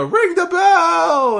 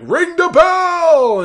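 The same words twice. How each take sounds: First: Very high, slow, stretched-out scream; wild yell. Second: Huge high drawn-out scream; wild yell. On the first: Dario Cueto ordering the bell rung, screaming wildly. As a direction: belt it across the arena. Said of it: "So he yells". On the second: GM ordering the ring announcer, wildly screaming. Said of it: "he just yells, like, wildly". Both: Retold or imitated.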